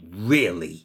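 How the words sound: It is said as an indignant exclamation. The speaker is indignant. "You can also use really as an exclamation of indignation"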